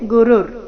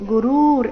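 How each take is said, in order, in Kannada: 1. ಎರಡನೇ ಸ್ವರ ಹ್ರಸ್ವವಾಗಿದೆ. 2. ಎರಡನೇ ಸ್ವರ ದೀರ್ಘವಾಗಿದೆ. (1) "ಗು ಮತ್ತೆ ರು ಎರಡು ರಸ್ವ" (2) "ಈ ರೀತಿ ಇಲ್ಲ"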